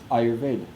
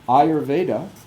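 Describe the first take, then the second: First: The word ends without the final vowel. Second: The word ends with a short uh vowel. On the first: "is often pronounced" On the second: "having a short uh at the end of it"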